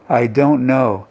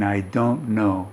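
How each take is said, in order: First: Said in the usual way. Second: Soft, muffled behind hands. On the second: Shown as a demonstration. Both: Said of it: "the voice is muffled".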